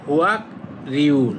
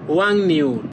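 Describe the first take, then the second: First: The middle is sounded as k followed by r. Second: The middle is sounded as ng followed by n. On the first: The speaker calls it wrong. "আমরা কিন্তু ম্যাক্সিমামই এইভাবে পড়ি, কিন্তু ওই জিনিসটা ভুল" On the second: The speaker calls it right. "ও বলবে যে হুয়াং নিউল"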